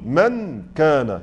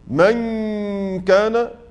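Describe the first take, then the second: First: The n is pronounced fully and clearly before k. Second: The n is nasalized and partly hidden before k. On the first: "لو أردت أن أنطق بالنون مظهرة ... سأسمع النون كاملة" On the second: "في الإخفاء لما أقول مثلا من كان، لم تذهب النون بالكلية"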